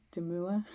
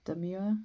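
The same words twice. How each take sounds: First: "Demure" without the y-glide, rising questioningly; pronunciation trial. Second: "Demure" with a y-glide, rising questioningly; pronunciation trial. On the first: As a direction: try "Demure" as de-MOOR, unsure. Tries the other pronunciation. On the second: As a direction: try "Demure" as de-MYOOR, unsure. Tries out an unsure pronunciation. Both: Shown as a demonstration.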